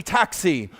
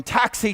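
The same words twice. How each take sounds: First: Cab driver calling, settled. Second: High, eager call of a cab driver. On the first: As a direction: let the second call drop back down. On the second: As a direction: call for the fare, bright and upward. Cab driver calling out to customer. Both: Retold or imitated.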